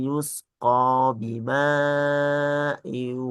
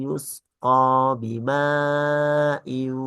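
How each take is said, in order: The two takes are said the same way.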